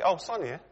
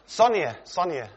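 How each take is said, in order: First: Said in the usual way. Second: A light hammed-up double call for attention; calling twice. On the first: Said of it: "I just say". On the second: Preacher showing how he doesn't address his wife, mock call. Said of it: "I don't go".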